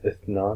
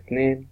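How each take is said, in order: First: It is said in the classical Arabic form. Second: It is said in the Kuwaiti dialect form.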